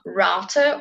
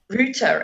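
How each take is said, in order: First: It is said in an American accent. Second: It is said in a British accent.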